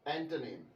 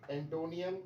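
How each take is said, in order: First: The word ends with a short nim sound. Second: The word ends with a nee-um sound. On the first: The speaker calls it right. "जो सही pronunciation है" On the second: The speaker calls it wrong. "मैंने कोई भी word सही pronounce नहीं किया"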